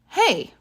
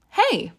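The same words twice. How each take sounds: First: It is called out sharply to catch attention. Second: It is said in a warm, friendly greeting tone. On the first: The speaker wants someone to notice them. "to get someone's attention. Like this" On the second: The speaker is greeting a friend. "to greet a friend, you can say"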